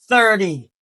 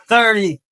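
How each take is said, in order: Both takes have the same delivery.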